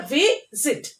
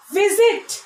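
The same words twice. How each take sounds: First: VISIT broken as vi, pause, sit; split into syllables. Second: Said in the usual way. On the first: Shown as a demonstration. Teacher showing children the two syllables, "visit" split as vi-sit. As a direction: say "visit" in two separate beats. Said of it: "two syllables". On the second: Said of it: "And two syllable words".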